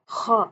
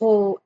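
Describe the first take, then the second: First: The lips stay unrounded, giving an open a vowel. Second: The lips are rounded, giving an o-like vowel. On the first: The speaker calls it right. "हुरूफ़ की अदायगी में होंठों को गोल नहीं करते" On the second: The speaker calls it wrong. "हम खो ऐसे नहीं पढ़ेंगे"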